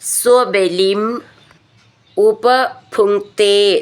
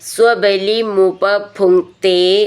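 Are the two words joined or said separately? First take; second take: separate; joined. First: The two words are said separately. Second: The two words run together into one.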